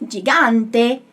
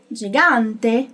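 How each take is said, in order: Both takes have the same delivery.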